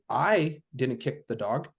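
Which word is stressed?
I. The stress is on the word I.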